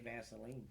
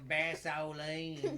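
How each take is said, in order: First: The word is said in a plain, ordinary way. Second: The word is said in a playful, jokey way. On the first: The speaker is speaking seriously. "if I was like being normal and not trying to be funny" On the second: The speaker is trying to be funny. "I used to always play around and go"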